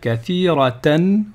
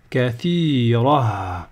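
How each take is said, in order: First: The word ends in 'atan' before the next word. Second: The word ends in a plain 'a' sound. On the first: The reader continues into the next word. "si je continue, je vais dire kathiratan wa" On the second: The reader pauses at the end of the word. "si je m'arrête, je vais dire kathira"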